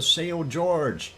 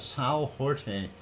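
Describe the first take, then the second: First: The name is said with English pronunciation. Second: The name is said with Portuguese pronunciation.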